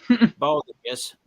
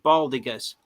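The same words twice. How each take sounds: First: The G is pronounced like a J. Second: The G is pronounced as a hard G. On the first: The speaker calls it wrong. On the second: The speaker calls it right.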